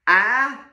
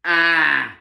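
First: The pitch rises on the vowel. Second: The pitch falls on the vowel. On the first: "it goes up" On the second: "my tie drops a little bit"

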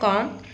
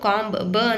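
First: The word ends on the m sound. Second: A b sound is heard after the m. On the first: The speaker calls it right. "ಬಿ ಏನಾಗುತ್ತೆ silent ಆಗುತ್ತೆ" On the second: The speaker calls it wrong. "ನಾವು ಕಾಂಬ್ ಬ ಅಂತ pronunciation ಮಾಡಲ್ಲ"

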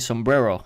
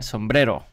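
First: The word is pronounced with English sounds. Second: The word is pronounced with Spanish sounds. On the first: The speaker calls it wrong. "I shouldn't say sombrero" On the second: The speaker calls it right. "I should say the right way because I'm Mexican"

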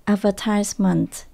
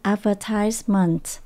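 First: The stress is on the third syllable. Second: The same.

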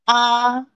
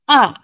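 First: The syllable is said with the first tone. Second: The syllable is said with the fourth tone. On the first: "first tone" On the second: "fourth tone"

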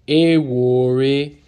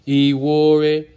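First: The first vowel sounds like 'ah'. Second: The first vowel sounds like 'ee'. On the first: The speaker calls it right. "The E sounds like an A" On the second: The speaker calls it wrong.

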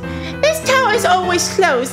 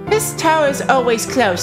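First: The voice is at a higher pitch. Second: The voice is at a normal pitch. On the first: The speaker calls it right. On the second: The speaker calls it wrong.

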